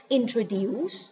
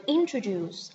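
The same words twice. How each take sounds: First: "introduce" ending in "dues", pitch rising; "introduce" with a mistaken "dues" ending; wrong pronunciation. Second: "introduce" ending in a j-like "juce"; correct pronunciation. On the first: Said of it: "not dues". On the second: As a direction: say "introduce" with "juce" at the end, not "dues". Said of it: "I didn't say introduce". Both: Shown as a demonstration.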